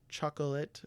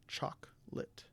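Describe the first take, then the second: First: The middle vowel is fully pronounced. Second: The middle vowel is dropped. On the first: The speaker calls it wrong. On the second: The speaker calls it right.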